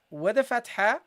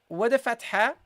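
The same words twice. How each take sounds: The two takes are said the same way.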